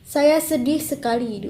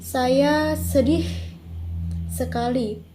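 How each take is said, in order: First: The last syllable is short and plain. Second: The last syllable is drawn out long.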